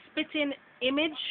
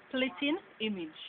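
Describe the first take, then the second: First: Said in the usual way. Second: "splitting image" with an added l; Jamaican pronunciation. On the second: Shown as a demonstration. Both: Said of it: "we would say splitting image".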